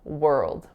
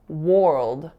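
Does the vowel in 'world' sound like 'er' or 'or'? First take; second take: er; or. First: The vowel sounds like 'er'. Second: The vowel sounds like 'or'. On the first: The speaker calls it right. "it sounds like er" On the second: The speaker calls it wrong. "with an or sound"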